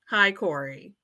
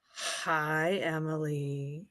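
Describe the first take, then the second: First: The greeting is said in a plain voice. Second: The greeting is said in a changed voice.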